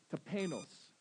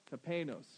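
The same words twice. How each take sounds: First: Tapeinos said slowly, syllable by syllable, with a Southern twang; Greek word in a Southern accent. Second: Tapeinos said once more at normal pace, falling at the end; Greek word, repeated. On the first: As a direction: tapeinos drawn out clearly for the congregation to repeat. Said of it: "learn how to mispronounce it from me in a Southern accent". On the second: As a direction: Tapeinos repeated as a model for the congregation. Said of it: "Can you say that?". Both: Shown as a demonstration.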